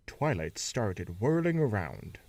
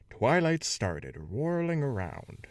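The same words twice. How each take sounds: First: Said in the usual way. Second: Started stressed as startled, raised pitch. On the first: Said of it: "Should have been Twilight started". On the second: Shown as a demonstration. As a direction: punch started as a jump of fright. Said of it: "I, I tried to do that".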